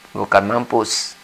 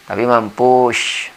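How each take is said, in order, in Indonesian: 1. Kata ini berakhir dengan bunyi s biasa. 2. Kata ini berakhir dengan bunyi sh. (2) "seperti mampus ini pakai sy"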